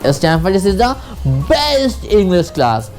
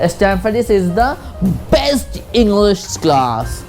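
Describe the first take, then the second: First: The stress is on the word best. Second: The same.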